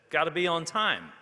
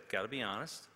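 First: Higher and much louder, calling out; called out. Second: Said in the usual way. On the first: A narrator's reading. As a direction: toss the rule out loudly to the room. Students calling out rules.

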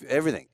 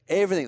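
First: Said in the usual way. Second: Everything punched high and loud; emphatic repeat. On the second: Real, not acted. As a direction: hit Everything hard, way up.

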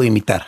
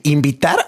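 First: Imitar, said with a clear m and no v, as the alternative; clarifying imitar. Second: Invitar, said with a clear v and a t, as a question; clarifying invitar. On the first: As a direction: set "imitar" against invitar, stressing the m. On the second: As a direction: ask "invitar" crisply, checking the word. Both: Shown as a demonstration. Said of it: "¿invitar o imitar?".

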